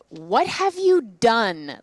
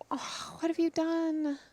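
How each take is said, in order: First: It sounds scornful, as if calling someone dumb. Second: It sounds loving and sorrowful.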